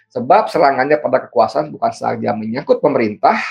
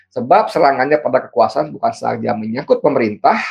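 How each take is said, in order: The two takes are said the same way.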